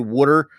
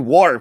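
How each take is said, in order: First: It is said in a Philadelphia accent. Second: It is pronounced the way it is spelled.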